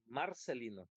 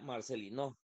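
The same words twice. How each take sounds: First: The stress is on the first syllable. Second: The stress is on the last syllable. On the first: "Si dijéramos que es la primera" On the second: "si dijéramos que es no, diría Marcelino"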